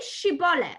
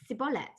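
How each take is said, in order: First: The word begins with a 'sh' sound. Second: The word begins with an 's' sound. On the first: The speaker is from the accusing tribe. "a shin" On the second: The speaker is an Ephraimite. "it would come out as a sin"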